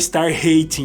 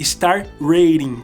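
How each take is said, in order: First: Rating starts with an H sound. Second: Rating starts with an English R sound. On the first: The speaker calls it wrong. "não comece cometam o mesmo erro que eu, não é star hating" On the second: The speaker calls it right. "toda palavra que começa com R no inglês é er"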